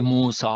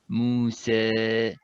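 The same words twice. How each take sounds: First: The long a is heavy and emphatic. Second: The long a is flat, with lips stretched. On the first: The speaker calls it wrong. "shouldn't be Musa like this, uh, otherwise you make it emphatic" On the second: The speaker calls it right. "you would say Musa ... my mouth is more flat"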